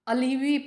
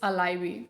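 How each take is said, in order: First: The middle vowel sounds like 'ee'. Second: The middle vowel sounds like 'eye'. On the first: The speaker calls it wrong. "मैंने भी starting में इसे अलीवी pronounce किया था" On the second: The speaker calls it right. "My first word is अलाइवी"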